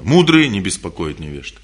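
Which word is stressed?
не беспокоят. The stress falls on "не беспокоят". The focus is on not disturbing. "На что я сделал акцент? Что мудрые что? Не беспокоят"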